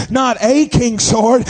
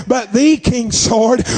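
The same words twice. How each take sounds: First: Slow, with "a" stressed as the rejected word. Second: Slow, emphatic "the", said as "thee"; stress on THE. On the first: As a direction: lean on "a" in "a king's sword", drawn out. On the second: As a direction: lean on "the" to mark the one and only. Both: Shown as a demonstration.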